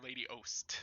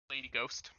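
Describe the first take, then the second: First: The G at the start is silent. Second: The G at the start is pronounced. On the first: The speaker calls it right. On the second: The speaker calls it wrong.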